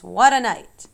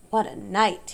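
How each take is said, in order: First: Loud, hoarse "What a night!"; hoarse exclamation. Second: A hoarse, tired "What a night"; hoarse repeat. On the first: Rat back from a night of feasting, hoarse and loud. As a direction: bark it out rough and spent. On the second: Rat repeating himself to the animals, hoarse. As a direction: say it again, worn out and rough. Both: Acted. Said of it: "he repeated hoarsely".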